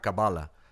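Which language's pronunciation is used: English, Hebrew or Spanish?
English. The word is pronounced the English way. "en inglés te dirá Kabbalah"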